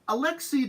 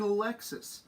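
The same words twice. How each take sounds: First: The final s of the name is silent. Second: The final s of the name is pronounced. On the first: "you don't have to pronounce the end of words in French" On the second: "whose first name should have been Alexis"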